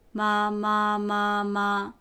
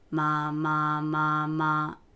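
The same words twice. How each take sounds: First: The pitch stays high and level. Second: The pitch stays low and steady. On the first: "一声、" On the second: "三声、"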